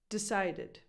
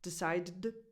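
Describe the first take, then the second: First: A small vowel separates the two D sounds. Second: The vowel before the final D is dropped. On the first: The speaker calls it right. "You just need something in between" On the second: The speaker calls it wrong. "Even if you tried to drop that vowel sound completely"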